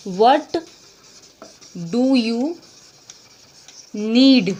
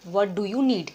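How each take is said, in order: First: Each word apart and louder; slow loud dictation. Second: Said in the usual way. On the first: Shown as a demonstration. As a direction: model it word by word for students. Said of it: "तो आप क्या बोलोगे इसको?". (हर शब्द अलग, ज़ोर से) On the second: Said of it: "इसके लिए क्या कहेंगे?".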